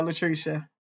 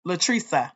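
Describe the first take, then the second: First: "Latricia" with a "sh" sound; first pronunciation. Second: "Latricia" with an "s" sound; corrected pronunciation. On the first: Host greeting a viewer, "Latricia" ending in "sha". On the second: Host correcting a viewer's name, "Latricia" ending in "sa". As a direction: say "Latricia" as la-TREE-sa. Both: Real, not acted.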